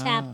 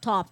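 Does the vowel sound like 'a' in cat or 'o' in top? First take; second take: a (cat); o (top). First: The vowel sounds like the 'a' in cat. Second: The vowel sounds like the 'o' in top. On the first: "Kaya nga tap, tap, sabi ko" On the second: "Pag top, top yan, ... Parang si Chris Aquino yan"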